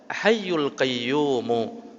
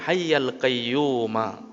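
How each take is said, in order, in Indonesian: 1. Kedua kata berakhir dengan vokal u. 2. Kedua kata berakhir dengan vokal a. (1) "Dibolehkan untuk membaca hayyul qayyumu" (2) "Kalau dalam hadis berbunyi hayyal qayyuma"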